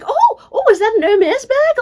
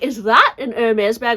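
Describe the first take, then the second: First: It sounds friendly and interested. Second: It sounds judgmental and disapproving.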